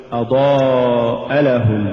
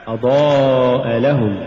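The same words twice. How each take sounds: First: أضاء لهم run into one word, stress shifted toward لهم; slowly fuse أضاء لهم as one word; words run together. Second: Drawn-out أضاء, kept apart from لهم; separate words. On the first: Teacher shows the mistake, أضاء لهم fused as one word. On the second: Teacher models correct recitation, أضاء stressed apart from لهم. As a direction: stress أضاء as its own word, then لهم. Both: Shown as a demonstration. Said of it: "ولا تقل".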